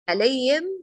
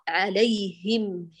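First: The h sound is changed and unclear. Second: The h sound is full and clear. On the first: The speaker calls it wrong. "ليس عليهم خطأ، انتبهي للها لا تختلف" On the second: The speaker calls it right. "عليهم هي"

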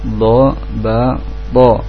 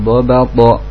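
First: Each syllable is said separately with breaks. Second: The syllables run together without breaks. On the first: "Jadi kalau satu-satu" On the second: "Kalau mau dilangsungkan"

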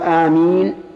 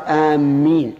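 First: The m sound is short and single. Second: The m sound is doubled and held. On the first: It means: O God, answer. The speaker calls it right. "ويقال آمين" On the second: It means: those heading toward. The speaker calls it wrong. "ولا يقال آمين ... لكنها رديئة جدا، إن آمين بتشديد الميم بمعنى قاصدي"

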